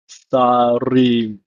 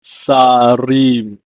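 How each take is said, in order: First: Sarim repeated, sa-rim; Hebrew pronunciation. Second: Sarim said sa-rim, falling; Hebrew pronunciation. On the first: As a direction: model Sarim again. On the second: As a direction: model Sarim clearly. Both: Shown as a demonstration. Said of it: "it's pronounced as".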